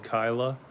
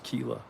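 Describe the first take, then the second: First: The first vowel sounds like 'eye'. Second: The first vowel sounds like 'ee'. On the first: The speaker calls it wrong. "I think I was pronouncing it wrong before" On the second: The speaker calls it right. "you corrected me and it, I think it was Keela"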